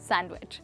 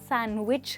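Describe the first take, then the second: First: The d is sounded in the middle. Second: The d is silent in the middle. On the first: The speaker calls it wrong. "ना कि सैंडविच" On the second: The speaker calls it right. "डी letter silent है"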